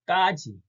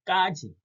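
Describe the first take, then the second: Both takes have the same delivery.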